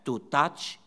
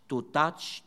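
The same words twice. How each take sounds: The two takes are said the same way.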